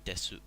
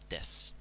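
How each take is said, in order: First: The word ends with a clear final vowel sound. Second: The word ends without a final vowel sound. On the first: It sounds overly polite, emphasizing every sound. The speaker calls it wrong. "rather than desu" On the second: It is the normal polite form for strangers. The speaker calls it right. "you just say des. So it's more pronounced like this"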